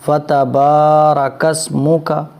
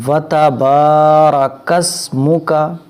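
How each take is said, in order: Both takes have the same delivery.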